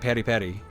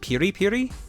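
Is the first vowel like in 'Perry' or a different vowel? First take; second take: Perry; different. First: The first vowel sounds like in 'Perry'. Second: The first vowel does not sound like 'Perry'. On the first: "I thought it was Perry" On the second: "Is it Piri Piri?"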